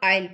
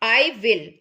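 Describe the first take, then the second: First: It is said as one contracted syllable. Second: It is said as two separate full words.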